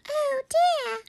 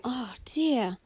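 First: Very high, tiny squeak; squeaky-voiced dismay; squeaky mummy voice. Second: Said in the usual way. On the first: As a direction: sigh the words as a squeaky toy would. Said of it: "She didn't hear the". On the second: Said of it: "she heard her own voice".

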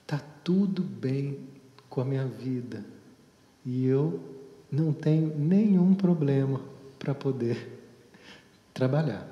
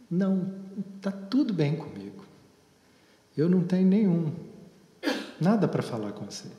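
First: Deliberate affirmation. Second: Imitating a casual, gum-chewing teen brush-off; lightly voiced teenager shrugging off the therapist; dismissive teen. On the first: Retold or imitated. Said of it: "eu fiz essa afirmação que ela fez". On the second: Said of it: "mascando um chiclete".

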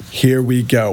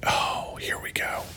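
First: Said in the usual way. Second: Soft, unvoiced whisper. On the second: Real, not acted. To viewers, bracing for the next post, whispered. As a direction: hush it like a secret.

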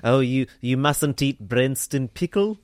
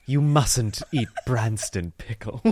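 First: Slow, lightly done South African accent. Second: Slow, lightly imitated British friend; mock-disapproving, each word drawn out. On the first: Shown as a demonstration. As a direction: try a South African accent, rising at the end. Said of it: "That's my South African accent". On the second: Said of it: "her friend was like".

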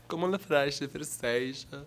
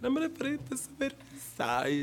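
First: Fake Portuguese. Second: Very slow, higher, mock-Portuguese sounds on "La frase francesa"; fake Brazilian Portuguese. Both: Shown as a demonstration. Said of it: "También puedo hacer el brasileño".

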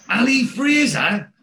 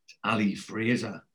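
First: High, loud, drawn-out incredulous question; shocked disbelief. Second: Low, slow and resigned; soft, reluctant confession after a sigh; sighing admission. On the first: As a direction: echo the name in loud astonishment. Neville's shocked echo of the name. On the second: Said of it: "sighs and he goes". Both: Retold or imitated.

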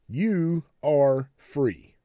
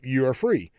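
First: "You are free" word by word, very slow; emphatic slow delivery. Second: Said in the usual way. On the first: Shown as a demonstration. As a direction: spread out "You are free", each word weighted and separate. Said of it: "I wanna focus on the first three words". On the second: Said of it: "kinda gloss over".

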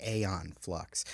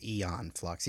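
First: "Aeon" said as AY-on; spelling-based pronunciation. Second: "Aeon" said as EE-on; Eon pronunciation. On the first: Host shows how the spelling looks, "Aeon" said AY-on. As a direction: start "Aeon" with a long ay sound. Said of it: "looks more like". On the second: Host picks the movie's way, "Aeon" said EE-on. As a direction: start "Aeon" with a long ee sound. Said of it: "I'm pronouncing it Eon". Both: Shown as a demonstration.

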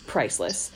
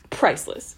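First: Said in the usual way. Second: Commercial tagline. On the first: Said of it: "It's like a Geico". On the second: Pretend. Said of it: "Geico or Progressive commercial".

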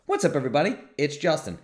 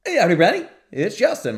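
First: Higher pitch replay of the intro greeting; quoted intro. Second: Much higher, louder hammed-up greeting; mock cut-off intro. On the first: Retold or imitated. Host recalling his usual greeting, lifted voice. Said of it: "the dramatic pause in the beginning". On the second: Host mimicking the clipped recording, hammed-up high greeting. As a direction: squeak out the clipped intro as a joke. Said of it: "and it's like".

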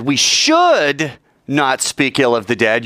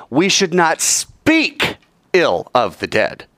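First: Slow, with "should" stressed. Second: Slow, with "not" stressed. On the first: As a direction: lean hard on "should", drawn out. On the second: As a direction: hit the word "not", slowly. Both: Shown as a demonstration. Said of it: "as I accent and stress each word".

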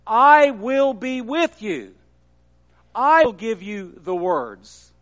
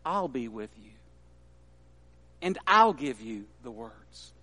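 First: Louder, with a strong stress on I; firm declaration. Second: Much softer and lower, a hushed promise; gentle reassurance. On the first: Preacher proclaims God's promise to Moses, firm and loud. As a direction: proclaim it with full conviction. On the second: God softly reassures a doubting Moses, hushed. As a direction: speak it like a quiet comfort. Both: Acted.

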